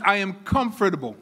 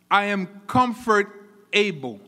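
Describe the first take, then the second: First: Said in the usual way. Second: "comfort able" slowly broken into two words, "comfort" then "able"; word split in two. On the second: Shown as a demonstration. Preacher splitting a word for the congregation, "comfort able" as two slow words. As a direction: pause inside "comfort able" so that ABLE stands alone. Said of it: "I am able to be comfortable".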